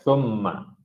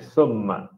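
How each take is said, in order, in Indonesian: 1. Kata ini diawali bunyi 'th' yang lembut. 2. Kata ini diawali bunyi 's' yang mendesis. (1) "bila sebut thumma" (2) "bukan summa"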